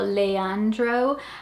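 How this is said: It is said with an English accent. This is how English speakers would say it. "I'm just guessing how people here would say it"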